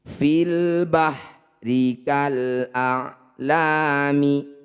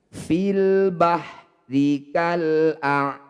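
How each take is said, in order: First: The last word ends with a short vowel. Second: The last word ends on a bare consonant. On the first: The recitation continues on without stopping. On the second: The recitation stops at this word.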